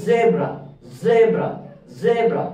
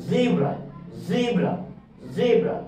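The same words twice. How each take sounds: First: "জেব্রা" with short e, ZEB-ra; British zebra. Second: "জিব্রা" with long ee, ZEE-bra; American zebra. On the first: Teacher repeats British "জেব্রা". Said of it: "তখন আপনি বলবেন". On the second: Teacher repeats American "জিব্রা". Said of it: "তখন আপনাকে pronounce করতে হবে". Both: Shown as a demonstration.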